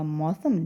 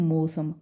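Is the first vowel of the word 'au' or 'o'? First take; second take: au; o. First: The first vowel is a clear 'au' sound. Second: The first vowel is a plain 'o' sound. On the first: The speaker calls it right. "मौसम में हमने बोला मौसम" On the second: The speaker calls it wrong. "लेकिन लोग क्या बोलते हैं"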